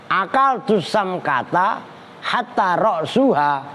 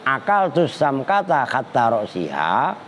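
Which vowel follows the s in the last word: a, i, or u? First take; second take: u; i. First: The last word has a u vowel after s. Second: The last word has an i vowel after s. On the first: The last word starts a new clause with an implied predicate. "Boleh juga dibaca rofa" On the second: The word hatta acts as a preposition. "roksi sinnya dibaca si kan jer"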